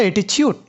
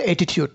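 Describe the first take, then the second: First: অ্যাটিচিউড the American way, ti becomes chi; অ্যাটিচিউড, American-style ch in the middle; American pronunciation. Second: অ্যাটিটিউড the British way, every t sharp; অ্যাটিটিউড, British-style clean t sounds; British pronunciation. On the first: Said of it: "আমেরিকানরা বলে অ্যাটিচিউড". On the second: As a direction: say অ্যাটিটিউড with a crisp clear t in the middle, British style. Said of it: "ব্রিটিশরা বলে অ্যাটিটিউড". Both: Shown as a demonstration.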